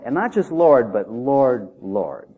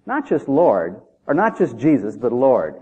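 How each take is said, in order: First: Repeated "Lord" for emphasis; stress on repeated Lord. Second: "not just Lord, but Lord" contrasted by stress. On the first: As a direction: lean on "Lord" then let it drop. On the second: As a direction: Lord leaned on with a falling tune. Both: Shown as a demonstration. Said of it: "The double emphasis".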